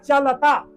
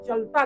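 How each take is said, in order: First: The 'la' syllable is pronounced fully. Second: The 'la' syllable is only half pronounced. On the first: "शब्द है चलता" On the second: "उसका आधा हम बोल जाते हैं"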